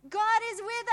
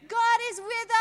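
Both takes have the same delivery.

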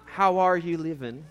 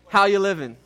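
First: It is said plainly, without swagger. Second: It is said with swagger and attitude.

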